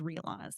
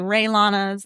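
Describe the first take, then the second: First: The name begins with the sounds 'ree-ah'. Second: The name begins with the sound 'ray'. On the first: The speaker calls it right. "the correct pronunciation is Ria Lanas" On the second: The speaker calls it wrong. "A lot of people say Ray Lanas"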